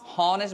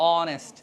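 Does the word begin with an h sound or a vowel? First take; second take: h sound; vowel. First: The word begins with an audible h sound. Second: The word begins directly with a vowel sound. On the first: The speaker calls it wrong. "হনেস্ট বলবে না" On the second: The speaker calls it right. "এইচ উচ্চারণ হচ্ছে না"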